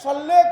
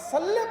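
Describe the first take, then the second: First: The s is emphatic, heavy and deep. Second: The s is plain, light and thin. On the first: Send blessings upon the Prophet. The speaker calls it right. "सल्ले सात से लिखा गया है" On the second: Strike the Prophet with a sword. The speaker calls it wrong. "सीन से अदा कर दिया"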